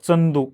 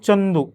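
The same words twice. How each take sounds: First: The first consonant is dental-palatal, like ts. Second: The first consonant is palatal, with a y-like quality. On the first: It is a regional way of saying the name. The speaker calls it wrong. "खानदेशचे जे लोक आहेत ते दंत तालव्यानं उच्चार करतात. चंदू म्हणतात" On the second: It is the standard way of saying the name. The speaker calls it right. "प्रॉपर उच्चार माझा काय? ... माझ्या च मध्ये य लागतो"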